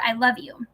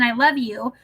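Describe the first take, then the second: First: "I love you" as a doubtful question, rising on "you". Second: Tender I love you. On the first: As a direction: ask "I love you" as if unsure it is true. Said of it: "The question mark changes the whole meaning". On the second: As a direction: say "I love you" as a tender statement, falling at the end. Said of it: "when said with kindness and tenderness". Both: Shown as a demonstration.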